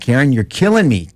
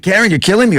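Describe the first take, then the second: First: It is said in an irritated, exasperated way. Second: It is said in a pained, distressed way. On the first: The listener is very annoying. "you're frustrating the shit out of me" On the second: The listener is literally causing harm. "you could literally be killing me and stabbing me"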